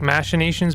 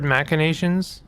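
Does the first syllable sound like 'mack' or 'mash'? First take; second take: mash; mack. First: The first syllable sounds like 'mash'. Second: The first syllable sounds like 'mack'. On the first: "because it's like machine" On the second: "I've always preferred"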